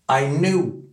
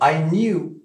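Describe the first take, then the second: First: 'Knew' has no glide, like 'noo'. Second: 'Knew' has a 'y' glide, like 'nyoo'. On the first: "Les Américains, en revanche, ils vont dire I knew, nous, comme nous" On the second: "Les Britanniques vont dire"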